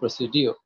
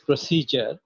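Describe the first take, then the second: First: The middle is said as 'dee-yoo'. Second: The middle is said with a 'j' sound. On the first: The speaker calls it wrong. "is never procedure" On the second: The speaker calls it right. "this is procedure"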